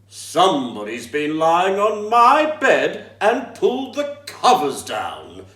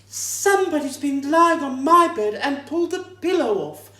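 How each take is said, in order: First: It is growled in a great big voice. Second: It is said in a medium-sized voice.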